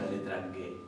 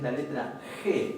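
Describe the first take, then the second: First: The letter is named with a hard G sound. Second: The letter is named with a throaty J sound. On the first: Nobody names the letter this way. "no decimos la letra G" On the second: This is how Spanish speakers normally name the letter. "Decimos es la letra G"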